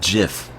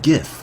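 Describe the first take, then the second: First: The word starts with a J sound. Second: The word starts with a hard G sound. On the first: The speaker calls it wrong. "It's not GIF" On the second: The speaker calls it right. "it's pronounced GIF"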